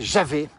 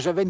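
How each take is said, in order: First: The name ends with an open 'è' vowel. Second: The name ends with an 'enne' sound. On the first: This is how the old local people said it. "la vraie prononciation locale, c'est Javet" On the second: This is how most people say it today. "tout le monde dit Javenne aujourd'hui"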